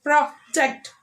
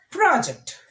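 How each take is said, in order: First: "Project" as a verb, pro-JECT; second-syllable stress. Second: "Project" as a noun, PRO-ject; first-syllable stress. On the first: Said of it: "we are stressing on the second". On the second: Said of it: "stressing on the first syllable". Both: Shown as a demonstration.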